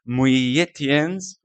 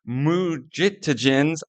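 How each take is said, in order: First: The J in the name sounds like Y. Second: The J in the name sounds like J. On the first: The speaker calls it right. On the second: The speaker calls it wrong.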